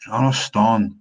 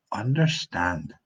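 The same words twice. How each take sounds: First: Loud Scots "Understand" with the consonants swallowed; Scots pronunciation. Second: Slow "understand" with every consonant sounded; clear pronunciation. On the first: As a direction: say "Understand" as broad Scots "unnerstaun". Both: Shown as a demonstration. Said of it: "is pronounced slightly differently".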